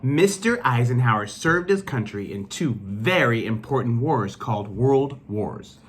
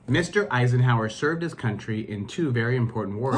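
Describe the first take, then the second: First: It is read with lively excitement. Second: It is read plainly, without excitement.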